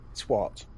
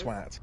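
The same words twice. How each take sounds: First: The vowel sounds like the one in 'what'. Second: The vowel does not sound like 'what'. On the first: The speaker calls it wrong. "If it was T W H A T, then it would be a twat" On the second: The speaker calls it right. "doesn't have an H in it"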